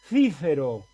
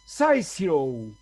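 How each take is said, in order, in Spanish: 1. Se dice con pronunciación española. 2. Se dice con pronunciación inglesa. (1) "Un español lo pronunciaba así" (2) "un inglés lo pronunciaba así"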